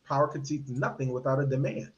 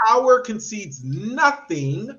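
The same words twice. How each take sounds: First: "power concedes nothing without a demand" lower and softer; subdued, lower "power concedes nothing without a demand"; low quiet quote. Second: "power concedes nothing" slowed and weighed; deliberate, measured "power concedes nothing"; slow emphatic quote. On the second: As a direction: lean on each word of "power concedes nothing". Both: Shown as a demonstration. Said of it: "as Frederick Douglass taught us".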